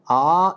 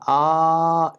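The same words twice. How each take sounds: First: The vowel is held for two beats. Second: The vowel is held for three beats. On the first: "A is Dirgha" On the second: "A is Pluta"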